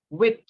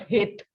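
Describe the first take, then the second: First: The word begins without any h sound. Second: The word begins with an h sound. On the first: The speaker calls it right. "The sound of H will be silent" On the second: The speaker calls it wrong. "Not hit"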